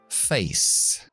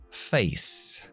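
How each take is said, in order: No difference in how they are said.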